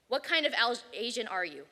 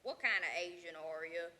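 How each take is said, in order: First: Title read. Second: Questioner's voice. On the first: Shown as a demonstration. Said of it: "By Alex Day". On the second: Retold or imitated. Imitating the man who asks him, low and deliberate. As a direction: mimic the blunt questioner. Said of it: "And so he said to me".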